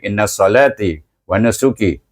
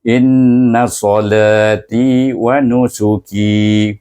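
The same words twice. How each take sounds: First: The long vowels are cut short to one beat. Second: The long vowels are held for two beats. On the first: The speaker calls it wrong. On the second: The speaker calls it right.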